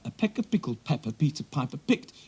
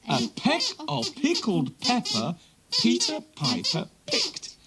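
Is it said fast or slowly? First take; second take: fast; slowly. First: It is said at normal, quicker speed. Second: It is said a little more slowly.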